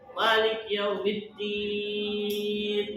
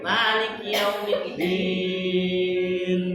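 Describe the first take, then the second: First: No vowel follows 'Malik'. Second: A short vowel follows 'Malik'. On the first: The speaker calls it wrong. "Jangan. Itu salah itu" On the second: The speaker calls it right. "gitu ya"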